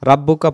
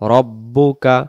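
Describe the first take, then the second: First: The first vowel sounds like an open 'a'. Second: The first vowel sounds like a rounded 'o'. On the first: The speaker calls it wrong. "রাব্বুকা পড়ব না" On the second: The speaker calls it right.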